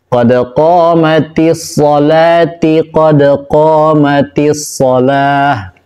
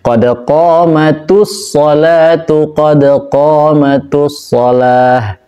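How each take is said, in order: First: Qamat ends in i, salat ends in i. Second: Qamat ends in u, salat ends in u. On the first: "Bukan ti dua-duanya" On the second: "Atau bukan tu semuanya"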